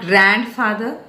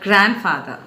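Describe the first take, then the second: First: The stress is not on the first syllable. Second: The stress is on the first syllable. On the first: The speaker calls it wrong. "It's not grandfather" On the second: The speaker calls it right. "the first syllable is to be stressed"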